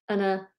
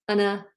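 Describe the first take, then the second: Both takes have the same delivery.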